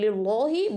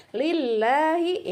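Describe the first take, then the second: First: "lillahi" as lil-lo-hi, heavy dark l; wrong thick lam. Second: "Lillahi" slow, light l and open a; thin lam. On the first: Teacher shows what not to do, "lillahi" with thick lam. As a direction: round "lillahi" toward o. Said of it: "Jangan lillahi". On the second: Teacher models thin reading, "Lillahi" with light a. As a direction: keep "Lillahi" thin, never rounded to o. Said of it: "Ini tipis bacanya". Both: Shown as a demonstration.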